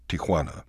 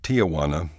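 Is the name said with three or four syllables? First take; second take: three; four. First: The name has three syllables, no extra vowel. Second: The name has four syllables, with an extra vowel. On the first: The speaker calls it right. "It's actually just Tijuana" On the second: The speaker calls it wrong. "There's no extra A. When you say Tijuana, you are saying Aunt Juana"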